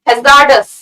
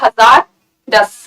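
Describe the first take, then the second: First: The R is silent, said as one word. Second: The R is sounded, split like two words. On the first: The speaker calls it right. "R is kind of silent here" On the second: The speaker calls it wrong. "कई लोग ऐसे पढ़ेंगे"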